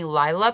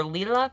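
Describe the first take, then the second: First: "Lila" said as LYE-luh; first pronunciation. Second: "Lila" said as LEE-luh; alternative pronunciation. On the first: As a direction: say "Lila" with a long eye vowel, LYE-luh. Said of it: "not sure how it's actually supposed to be pronounced". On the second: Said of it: "I've heard it pronounced both ways". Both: Shown as a demonstration.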